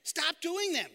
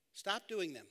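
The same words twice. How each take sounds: First: Sincere firm repeat of the advice; earnest emphasis. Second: Dry mock-simple advice; deadpan sarcastic. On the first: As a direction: Stop doing them higher and louder, meant for real. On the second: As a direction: stop doing them said quiet and flat as too-simple advice. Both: Shown as a demonstration. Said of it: "I was being sarcastic".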